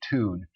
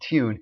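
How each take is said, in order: First: It is said with no y-glide: toon. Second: It is said with a y-glide: tyoon. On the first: This is the local form people actually use. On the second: This is the prestige form people claim to use.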